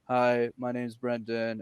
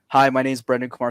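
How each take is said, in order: First: It is said with flat, low energy. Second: It is said with lively, high energy.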